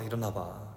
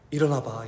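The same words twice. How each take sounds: First: Much softer "일어나봐" with a small rise, nearly a murmur; hushed coaxing. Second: Gentle waking call. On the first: Father coaxing his half-asleep child, hushed rising. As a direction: coax "일어나봐" quietly, lifting it at the end. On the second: Father waking his crying child, gentle call. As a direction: call "일어나봐" gently, falling at the end. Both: Retold or imitated. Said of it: "이렇게 얘기했어요".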